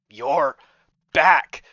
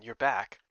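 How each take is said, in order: First: Sudden loud, bright greeting on back; cheerful shout. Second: Said in the usual way. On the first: Acted. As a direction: burst out the second word.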